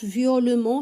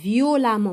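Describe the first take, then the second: First: The vowel after 'viol' sounds like 'e'. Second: The vowel after 'viol' sounds like 'a'. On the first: The speaker calls it wrong. "ما كتقراش فيولمون" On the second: The speaker calls it right. "كتقرا فيولامون"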